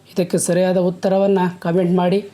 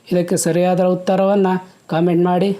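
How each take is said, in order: The two takes are said the same way.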